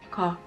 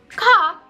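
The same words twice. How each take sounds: First: The k is deep and short with no puff. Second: The k is released with a strong puff of air. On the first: "almost the K sound, but lower, it starts to become very non-aspirated" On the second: "you can feel the air smack your hand"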